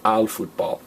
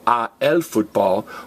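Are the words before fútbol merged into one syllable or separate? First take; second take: merged; separate. First: A and el are merged into one syllable. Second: A and el are said as two separate syllables. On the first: The speaker calls it right. "What does a el turn into? Al" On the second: The speaker calls it wrong. "you don't say yo juego a el fútbol"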